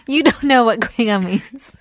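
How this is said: The voice falls at the end, like a statement.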